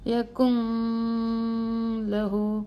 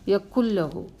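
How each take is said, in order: First: The n is held with a nasal hum. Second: The n disappears into a doubled l. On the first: The speaker calls it wrong. "ഇനി ഒന്ന് മണിച്ച് നോക്കിയേ" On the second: The speaker calls it right. "ഉച്ചരിക്കാനേ പാടില്ല, അതിനെ അവോയ്ഡ് ചെയ്യണം"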